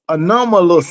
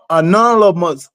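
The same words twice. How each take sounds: First: "anomalous" as a-NOM-uh-lus; "anomalous" sounded out as a-NOM-uh-lus; anomalous pronounced correctly. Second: "anonymous" garbled as a-NOL-uh-mus; "anonymous" fumbled with L before M, a-NOL-uh-mus; mispronounced anomalous. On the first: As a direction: land "anomalous" carefully, M before L. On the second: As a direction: trip over "anonymous", swapping in an L: a-NOL-uh-mus. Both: Real, not acted. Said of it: "you know what word I'm trying to pronounce".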